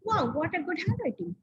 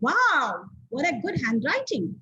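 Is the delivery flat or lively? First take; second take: flat; lively. First: It is said quietly in a flat voice. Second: It is said loudly in a raised, lively voice. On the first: The speaker calls it wrong. "is that sounding good? Obviously, no" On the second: The speaker calls it right. "if I raise my tone"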